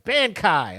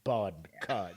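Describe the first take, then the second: First: It is said quickly in a light voice. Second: It is said in a deep, bassy voice.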